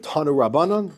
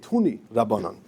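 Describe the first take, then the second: First: It is said in Israeli Hebrew pronunciation. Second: It is said in Polish Yiddish pronunciation. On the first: "We would read it Tanu Rabbanan" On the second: "the Polish Yiddish pronunciation is Tuni Rabbanan"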